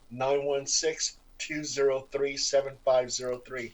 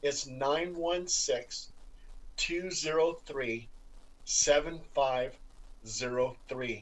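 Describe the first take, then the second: First: The number is said at a normal fast pace. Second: The number is said more slowly and carefully.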